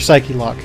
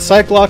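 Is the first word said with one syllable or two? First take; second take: two; one. First: The first word is two syllables, ending in a vowel. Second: The first word is one syllable, like bike. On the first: "it's got the E at the end" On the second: "So that way it sounds like Cyclops"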